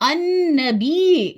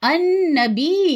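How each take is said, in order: First: The final y sound is doubled. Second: The same.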